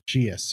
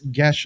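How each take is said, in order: First: It is two syllables, sounding like gee-us. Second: It is one syllable, sounding like gesh. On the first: "or Geus, or I've heard it mispronounced" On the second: "it's Gesh spelled G E A S"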